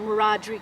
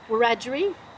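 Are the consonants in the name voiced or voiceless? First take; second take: voiced; voiceless. First: The consonants are said with voicing. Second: The consonants are said without voicing. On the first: This is how the speaker's parents said it. "I'm saying Wiradjuri because I'm using the voice sounds" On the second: This is how some other people say it. "some people will say"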